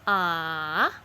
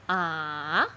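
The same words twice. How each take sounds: First: The pitch dips down and then rises. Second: The pitch dips down and then rises.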